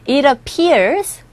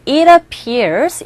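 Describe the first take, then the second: First: "it appears" said as "i-rappears" with a flapped t; flapped t linking. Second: "it appears" said separately, t clear, not flapped; unlinked version. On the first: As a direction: glide "it" into "appears" like "irappears". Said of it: "우리 귀에 들려질 때는 이러". (티를 굴려서 이러피어스) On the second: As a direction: keep "it" apart from "appears", hard t. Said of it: "it appears보다는". (끊어서 딱딱하게 발음) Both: Shown as a demonstration.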